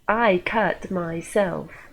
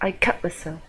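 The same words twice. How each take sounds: First: Myself is strongly emphasized. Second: Myself is said weakly, cut is clear.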